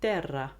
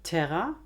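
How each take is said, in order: First: The t is unaspirated, without a puff of air. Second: The t is aspirated with a puff of air. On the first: "im Italienischen nicht" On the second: "im Deutschen aspiriert"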